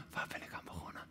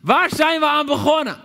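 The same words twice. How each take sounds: First: Whispered to himself; "Waar ben ik aan begonnen?" whispered silently to himself. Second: Much higher, louder outcry; "Waar zijn we aan begonnen?" yelled high and loud for all to hear; cry out. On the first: Preacher contrasting the king's private doubt, whispered. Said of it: "stilletjes bij zichzelf afvraagt". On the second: Preacher showing the king crying out to soldiers, loud outcry. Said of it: "dat hij het uitroept". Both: Shown as a demonstration.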